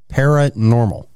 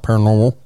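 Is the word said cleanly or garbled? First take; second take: cleanly; garbled. First: The word is said cleanly and clearly. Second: The word comes out slurred and garbled. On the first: "I can never say that word ever" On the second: "it always comes out paranormal"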